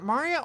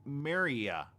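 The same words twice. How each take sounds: First: Maria said mah-REE-uh; first pronunciation offered. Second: Maria said meh-REE-uh; "eh" in the first syllable of Maria; alternative pronunciation. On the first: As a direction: open "ah" in the first syllable of Maria. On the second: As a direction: say Maria as "Mare-ee-a". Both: Shown as a demonstration. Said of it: "Is it Maria or".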